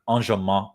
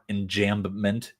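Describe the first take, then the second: First: It is said with a non-American accent. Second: It is said with an American accent.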